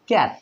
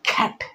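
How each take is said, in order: First: The k is plain, without a puff of air. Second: The k has a strong puff of air. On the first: The speaker calls it wrong. "আমরা আগে এটা কি বলতাম ক্যাট" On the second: The speaker calls it right. "ক্যাট না বলে খ্যাট"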